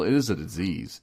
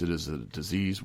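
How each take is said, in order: First: "is" leaned on as a firm answer; stress on IS. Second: Said in the usual way. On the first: Real, not acted. Speaker answers the choice-or-disease debate, stressing "is". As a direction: hit the word "is" to settle it. Answering the quoted discussion firmly.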